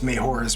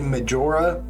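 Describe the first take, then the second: First: The name has a Spanish-influenced pronunciation. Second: The name has a standard English pronunciation. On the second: "It's actually Majora"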